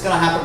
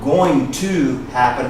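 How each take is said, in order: First: Going and to are run together into gonna. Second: The words going and to are said separately. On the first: "he runs it together" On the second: "It's not going to happen"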